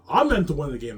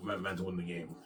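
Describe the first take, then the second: First: Raised, emphatic declaration; loud insistence. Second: Said in the usual way. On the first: Real, not acted. Proclaiming his destiny to the world, loudly.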